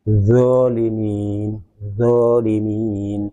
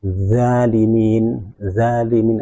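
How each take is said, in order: First: Zolimin very slow with a heavy raised zo; slow correct zolimin. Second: Zalimin slow with a light, flat-tongued za; demonstrating the wrong light za. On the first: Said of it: "tidak boleh diucapkan". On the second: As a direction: stretch zalimin as the mistake. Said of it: "tidak boleh diucapkan zalimin". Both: Shown as a demonstration.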